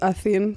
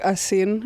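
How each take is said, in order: First: The middle consonant is a soft th sound. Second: The middle consonant is a hissing s sound. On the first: This is how the name is said at home. The speaker calls it right. "instead of Athin" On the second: This is how most Americans say it. The speaker calls it wrong. "everyone says like Asin"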